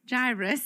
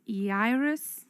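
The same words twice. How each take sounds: First: The name begins with an English J sound. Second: The name begins without an English J sound. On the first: "We're going to stick with the J" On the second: "in the Greek, it's Jairus"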